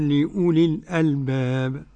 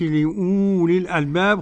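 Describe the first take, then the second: First: The vowel after the glottal stop is kept short. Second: The vowel after the glottal stop is drawn out long. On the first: The speaker calls it right. "أقول لأولي الألباب" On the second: The speaker calls it wrong. "ما أقولش لأولي الألباب خطأ"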